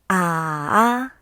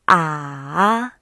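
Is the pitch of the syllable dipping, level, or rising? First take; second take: dipping; dipping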